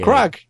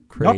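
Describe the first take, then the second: First: The name sounds like the word crag. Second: The name does not sound like crag. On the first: The speaker calls it wrong. "Not crag. A crag is something in a rock" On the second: The speaker calls it right. "Yeah. Craig"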